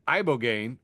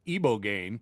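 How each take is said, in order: First: "ibogaine" starting with an EYE sound; first pronunciation. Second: "ibogaine" starting with an EE sound; corrected pronunciation. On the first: Host reading out the drug list, "ibogaine" said EYE-bo-gain. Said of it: "now been told is pronounced". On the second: Host passing on the correction he was told, "ibogaine" said EE-bo-gain. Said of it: "I've now been told is pronounced". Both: Shown as a demonstration.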